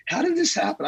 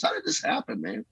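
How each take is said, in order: First: Much higher, amazed exclamation; astonished cry. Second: Breathy near-whisper, close to tears; tearful whisper. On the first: Pastor amazed at how the church has grown, astonished cry. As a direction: cry it out in wonder. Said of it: "And I'm like". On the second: Pastor overcome by God's work in his church, tearful whisper. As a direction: let it fall to a hushed, tearful breath. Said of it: "I just cry sometimes". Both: Retold or imitated.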